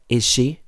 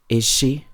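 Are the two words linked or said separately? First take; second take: linked; linked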